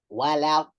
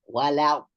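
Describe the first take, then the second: First: The l sound is kept clear and light. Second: The l sound is kept clear and light.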